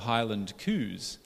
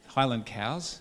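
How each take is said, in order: First: It is said in a Scottish accent. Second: It is said in a standard accent. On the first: The speaker calls it wrong. "my Scottish accent got in the way" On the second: The speaker calls it right.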